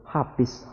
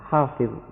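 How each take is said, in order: First: A regional substitute replaces the Arabic consonant. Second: The consonant is said as the Arabic sound. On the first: This is how speakers of a local dialect say it. The speaker calls it wrong. "ada yang tidak bisa menyebut huruf wa, sehingga dalam penyebutan sehari-hari mereka selalu menyebut" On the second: This is how the word is really said. The speaker calls it right. "padahal yang sebenarnya adalah"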